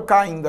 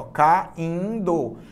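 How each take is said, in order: First: Said in the usual way. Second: "Caindo" split into ca, in, do; syllable by syllable. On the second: Shown as a demonstration. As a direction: say "Caindo" in three drawn-out syllables. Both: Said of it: "separa as sílabas comigo".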